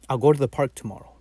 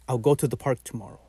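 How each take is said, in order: First: The first word is a short, reduced 'ow'. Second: The same.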